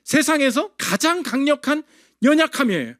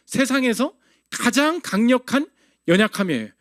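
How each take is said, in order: First: 연약함이에요 weighted at the end, pitch falling; emphatic definition. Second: Slow, stress on 가장 rising; 가장 drawn out with a rise, then 연약함이에요 dropping; slow emphatic repeat. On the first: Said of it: "어떻게 강해지죠?". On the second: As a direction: lean hard on 가장 and slow the phrase. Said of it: "눈물이 뭐라고요?". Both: Shown as a demonstration.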